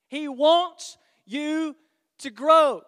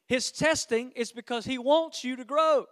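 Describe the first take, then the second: First: WANTS stretched slowly, then GROW hit loud; slow emphatic repeat. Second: Said in the usual way. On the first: Real, not acted. Preacher driving the point home to congregation, slow and emphatic. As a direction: lean hard on "wants" and punch "grow".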